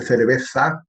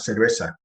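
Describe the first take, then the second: First: "cerveza" with the z as a lisped th, tongue out between the teeth; Spanish cerveza with ceceo th; Castilian lisp. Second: "cerveza" with the z said as a plain s, no lisp; seseo s. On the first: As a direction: say "cerveza" as in Spain, thick th sound for the z. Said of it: "con mucha Z y mucha lengua fuera". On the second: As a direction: say "cerveza" the Latin American way, s for the z. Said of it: "Con una S más". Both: Shown as a demonstration.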